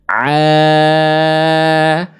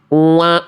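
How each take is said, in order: First: The sound is clear, not passing through the nose. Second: The sound is nasal, passing through the nose. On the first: The speaker calls it right. "yang insya Allah lebih tepatnya seperti apa" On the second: The speaker calls it wrong. "Tandanya salah bacaannya. Karena ainnya masuk ke rongga hidung"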